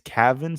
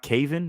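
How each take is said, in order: First: The name sounds like Gavin with a K. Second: The name does not sound like Gavin. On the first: The speaker calls it right. "pronounced like Gavin" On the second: The speaker calls it wrong. "It's not Caven"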